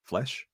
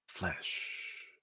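First: A quick rising "Flesh?" in disbelief; startled echo. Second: A low, soft, breathed "Flesh", slowly savoured; a wild boy relishing the word to unsettle a gentleman. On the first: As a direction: echo the word "Flesh" back as a question. Startled echo of the boy's word. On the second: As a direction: taste the word "Flesh" as you say it. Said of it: "pronounced the word with slow relish". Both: Acted.

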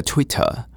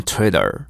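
First: "Twitter" with a true T, no final r; British "Twitter", tongue uncurled; British pronunciation. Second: "Twitter" with d-like T and curled r; American "Twitter", T softened to a d; American pronunciation. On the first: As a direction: say "Twitter" as "twi-tuh". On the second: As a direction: say "Twitter" as "twi-der". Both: Shown as a demonstration. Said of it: "你就不用念成Twitter".

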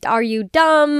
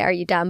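First: Exasperated jab. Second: Said in the usual way. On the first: Retold or imitated. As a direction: fire it back in disbelief. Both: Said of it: "I mean, she didn't say".

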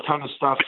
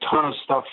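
Both takes have the same delivery.

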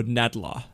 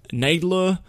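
First: "Nadler" said as NAD-ler; first syllable of "Nadler" rhymes with "mad"; Nadler with short A. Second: "Nadler" said as NAYD-ler; first syllable of "Nadler" rhymes with "made"; Nadler with long A. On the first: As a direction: say "Nadler" with the vowel of "cat". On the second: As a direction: say "Nadler" with the vowel of "day". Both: Shown as a demonstration. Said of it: "Depends how you, how you say it".

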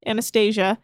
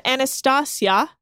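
First: Anastasia said anna-STAY-zhuh; second pronunciation. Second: Anastasia said ah-nah-STAH-see-ah; first pronunciation. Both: Shown as a demonstration. Gives the name two ways.

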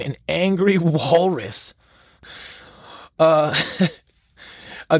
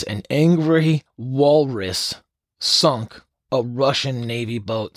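First: Slow "angry" breaking into a laugh; laughing through it. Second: Slow, weighty headline, stress on "angry"; dramatic headline read. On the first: Real, not acted. Host rereads the walrus article, laughing mid-phrase. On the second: Shown as a demonstration. Host reads the walrus headline aloud, slow and weighty. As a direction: draw out "An angry walrus" slowly for effect.

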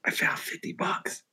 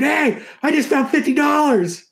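First: Whispered, all nonchalant. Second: High excited shout; screaming. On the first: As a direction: breathe it out secretly. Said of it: "whispered it and shit". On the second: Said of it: "and I screamed". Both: Retold or imitated.

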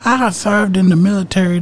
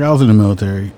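First: "I served in the military" squeaked much higher in a put-on Middle Eastern accent; mock the driver's outrage in a Middle Eastern accent. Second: Said in the usual way. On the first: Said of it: "He had a heavy accent". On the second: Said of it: "It's like".

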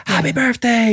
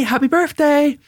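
First: High, bright-pitched mock greeting; big energy. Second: High-pitched eager birthday hello; overexcited greeting. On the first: Dad replaying his overeager greeting, high and bright. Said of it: "you know, big energy". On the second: Retold or imitated. Dad greeting his daughter in the car, high and eager. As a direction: greet her with too much energy.

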